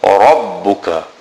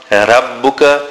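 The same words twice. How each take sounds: First: The R is heavy, with a full mouth. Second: The R is light, with a thin mouth. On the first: The speaker calls it right. "the Ra is full mouth" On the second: The speaker calls it wrong. "It is not Rabbuka"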